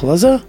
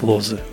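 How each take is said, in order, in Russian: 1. Ударение на последнем слоге. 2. Ударение на первом слоге. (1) "с точки зрения русских Лоза" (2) "с точки зрения поляков Лозы"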